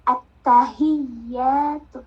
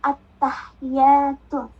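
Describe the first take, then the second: First: A sound in the word is held long. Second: A sound in the word is kept short. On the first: The speaker calls it right. "Padahal yang benar ... Beda panjang" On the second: The speaker calls it wrong. "Rata-rata bacanya"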